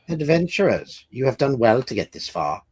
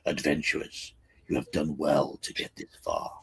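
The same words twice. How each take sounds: First: It is said in the speaker's normal voice. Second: It is said in a deep dwarf voice.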